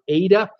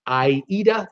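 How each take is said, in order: First: The name is said the plain American way. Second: The name is said the European way.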